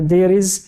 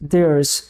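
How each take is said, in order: First: It is said as two separate full words. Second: It is contracted into one short syllable.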